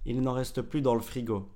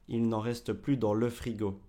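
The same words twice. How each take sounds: First: It is said fast with 'le' reduced. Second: It is said carefully with 'le' fully pronounced. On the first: The speaker calls it wrong. "c'est vraiment quand c'est très rapide" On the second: The speaker calls it right. "c'est plus juste de dire le"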